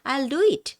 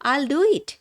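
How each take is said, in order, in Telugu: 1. 'will' పూర్తి, వేరు పదంగా పలుకుతారు. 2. 'will' తగ్గించి 'I'll' లాగా కలిపి పలుకుతారు.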